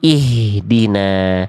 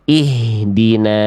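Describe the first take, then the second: Both takes have the same delivery.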